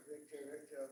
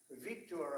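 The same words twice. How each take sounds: First: Said in the usual way. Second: Victor said VIK-tor, with a full open "tor" at the end instead of "ter"; a little foreign accent. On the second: Shown as a demonstration. Naming Hungary's leader his own way, lightly accented Victor. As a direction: give Victor its native ring, VIK-tor, the last syllable round and clear. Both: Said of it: "I put the little accent on it".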